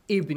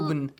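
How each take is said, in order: First: The word starts with an i vowel. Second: The word starts with a u vowel. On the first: The speaker calls it right. "you say with kasra. Ibn" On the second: The speaker calls it wrong. "You don't say Ubn"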